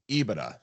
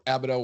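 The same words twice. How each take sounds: First: "ebitda" said with a long ee opening; first pronunciation variant. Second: "ebitda" in an alternative pronunciation, not EE-bih-tuh. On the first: Co-host explaining bank valuations, "ebitda" pronounced EE-bih-tuh. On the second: Co-host offering listeners another way, "ebitda" pronounced alternatively. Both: Shown as a demonstration. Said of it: "whatever you wanna say it".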